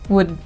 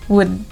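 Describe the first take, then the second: First: The word is said with a reduced vowel. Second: The word is said with a reduced vowel.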